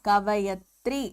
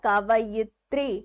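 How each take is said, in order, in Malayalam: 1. 'kavay'ക്ക് ശേഷം 'i' സ്വരം കേൾക്കുന്നില്ല. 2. 'kavay'ക്ക് ശേഷം 'i' സ്വരം കേൾക്കുന്നു. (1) "കവയത്രി അല്ല"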